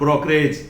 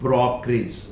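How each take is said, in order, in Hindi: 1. आखिरी अक्षर 'edge' जैसा सुनाई देता है। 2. आखिरी अक्षर 'idge' जैसा सुनाई देता है।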